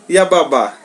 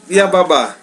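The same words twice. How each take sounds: The two takes are said the same way.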